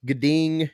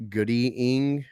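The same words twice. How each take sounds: First: Gading said with a little twang, GAY-ding; twangy Gading. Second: Goody Ing split in two, stress on ING. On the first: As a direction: give Gading a springy twang. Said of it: "I put, like, a little twang to it". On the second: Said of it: "so I can't say Goody Ing". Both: Shown as a demonstration.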